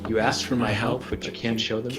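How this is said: It sounds gentle, genuine and humble.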